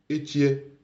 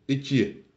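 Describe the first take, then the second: The two takes are said the same way.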